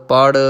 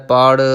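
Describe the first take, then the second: The two takes are said the same way.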